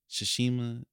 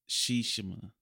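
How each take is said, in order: First: Said in the usual way. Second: Shishima with SHEE stressed up front; game's pronunciation. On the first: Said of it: "how he said it". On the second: Shown as a demonstration. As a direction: say Shishima as SHEE-shuh-muh. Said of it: "He said it like".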